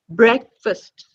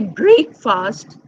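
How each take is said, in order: First: The second syllable has a reduced vowel. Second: The second syllable has a full vowel. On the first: The speaker calls it right. "this short uh sound" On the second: The speaker calls it wrong. "We don't say break fast"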